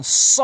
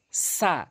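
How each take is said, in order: First: স as a loud, hissed "so"; emphatic s on স, forcefully hissed; rounded heavy স. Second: সা as a light, open "sa"; thin plain s on সা; wide-mouthed সা. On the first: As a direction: round the mouth on স. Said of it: "সতে মুখ গোলাকার হবে". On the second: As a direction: spread the mouth on সা. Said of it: "সিনটি মুখ ওসার হবে". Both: Shown as a demonstration.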